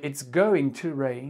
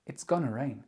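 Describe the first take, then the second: First: Going to is said in full. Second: Going to is contracted to gonna. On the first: "Au lieu de dire it's going to rain" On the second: "vous pouvez très bien dire oh, look, it's gonna rain"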